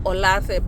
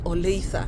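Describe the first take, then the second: First: It is read as spelled, Kenyan style. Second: It is said the local American way. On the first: This is how someone reading the spelling would say it. "Kikenya will read it as Olathe" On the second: This is how locals say it. "here they pronounce it as Olathe"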